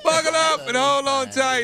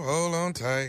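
First: The delivery is exaggerated, with a lot of energy. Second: The delivery is flat and dry, with little energy. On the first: "That's too much" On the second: "I don't like your damn dry ass tone"

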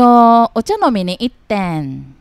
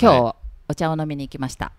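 First: It is said in a Kansai dialect accent. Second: It is said in standard Tokyo-area Japanese.

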